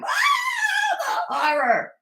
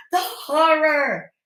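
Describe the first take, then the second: First: Mock horror. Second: Slow, higher, louder mock-dramatic; sarcastic mock horror. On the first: Vlogger mocking Angela's outrage at Michael, melodramatic wail. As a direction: fake melodramatic gasp of outrage. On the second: Vlogger ridiculing Angela's hypocrisy, slow sarcastic mock horror. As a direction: drag it out with theatrical sarcasm.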